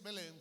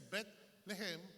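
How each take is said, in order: First: The name is said in two syllables. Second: The name is said in three syllables. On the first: The speaker calls it wrong. "que no se dice Belén" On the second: The speaker calls it right. "se dice Bet-Lehem"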